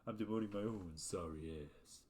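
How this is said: It is said in a Duke Nukem impression.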